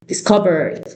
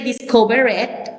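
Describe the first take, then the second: First: The ending is only a soft d sound. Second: The ending is said as an extra syllable. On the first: The speaker calls it right. "I say discovered" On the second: The speaker calls it wrong. "I didn't say discover it"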